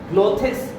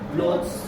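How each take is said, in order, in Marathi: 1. s च्या आधी एक अतिरिक्त स्वर ऐकू येतो. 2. s च्या आधी कोणताही अतिरिक्त स्वर ऐकू येत नाही.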